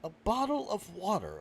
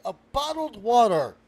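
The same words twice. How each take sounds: First: Said in the usual way. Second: BOTTLED WATER loud and raised in pitch; exasperated repeat. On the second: Acted. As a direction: punch out "bottled water" loudly, higher. Host repeats it louder, exasperated.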